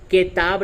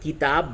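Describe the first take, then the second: First: The first vowel is an 'e' sound. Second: The first vowel is a short 'i'. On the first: The speaker calls it wrong. "किताब नहीं बोलते" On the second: The speaker calls it right. "बल्कि किताब बोलते हैं, तो काफ जेर की बोला गया"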